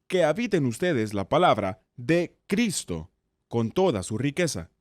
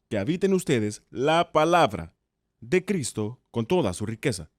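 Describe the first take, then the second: First: The word Cristo is stressed. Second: The word palabra is stressed.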